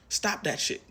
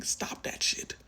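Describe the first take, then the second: First: Raised, high, firm scold; emphatic scold. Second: Breathy whisper of the same scold; whispered repeat. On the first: Reader scolding the viewer's self-doubt, raised and firm. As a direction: snap at the viewer to quit it. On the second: Reader repeating the scold to the viewer, whispered. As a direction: hush it out under the breath. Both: Real, not acted.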